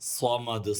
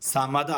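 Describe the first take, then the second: First: The first s sound is heavy and emphatic. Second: The first s sound is plain. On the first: The speaker calls it right. "സ്വാദ് ശ്രദ്ധിക്കാനുണ്ട്" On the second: The speaker calls it wrong. "സമദ് ആവരുത്"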